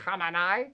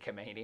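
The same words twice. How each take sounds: First: The name is said with native-like Persian sounds. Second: The name is said with plain English sounds. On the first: "I sound ridiculous trying to say it right" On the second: "I just say Khamenei"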